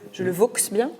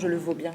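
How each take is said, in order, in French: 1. La consonne finale de « vaux » est prononcée. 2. La consonne finale de « vaux » est muette.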